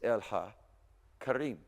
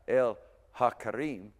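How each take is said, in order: First: The words run together without a break. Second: The words are said separately, with a break. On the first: The speaker calls it right. "We're just pronouncing it together" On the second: The speaker calls it wrong. "So it's not el ha karim"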